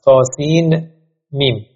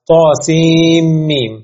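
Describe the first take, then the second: First: The n is pronounced separately before the m. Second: The n is merged into the following m. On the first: "هم بدون ادغام خوندنش درست هست" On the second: "تلفظش هم با ادغام هست"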